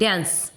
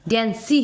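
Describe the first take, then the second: First: The word ends on the 's' consonant. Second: The word ends with an added 'ee' vowel. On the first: The speaker calls it right. "डांस इतने तक हो रहा है, ई omit हो रहा है" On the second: The speaker calls it wrong. "डांसी हो रहा है क्या"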